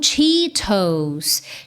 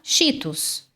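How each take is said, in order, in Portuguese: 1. É dito com pronúncia do inglês. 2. É dito com pronúncia do português brasileiro. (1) "o natural no inglês é Cheetos" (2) "Muita gente fala Cheetos"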